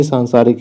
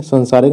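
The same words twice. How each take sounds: First: सांसारिक with long first vowel, "saansaarik"; correct form. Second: सांसारिक with short first vowel, "sansaarik"; wrong form. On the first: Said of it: "सांसारिक नहीं". (सांसारिक का पहला आ लंबा) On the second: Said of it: "सांसारिक ही सही है". (सांसारिक का पहला स्वर छोटा, संसारिक जैसा) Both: Shown as a demonstration.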